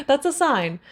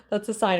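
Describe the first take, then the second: First: "That's a sign" higher and louder, punching it out; emphatic. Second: Said in the usual way. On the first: Shown as a demonstration. After laughing at her own cursing, high and loud.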